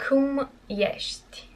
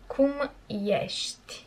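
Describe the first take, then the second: No difference in how they are said.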